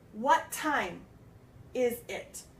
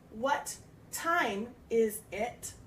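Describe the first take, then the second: First: The two T sounds blend into one. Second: The two T sounds are said separately. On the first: "we would run it together" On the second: "instead of saying"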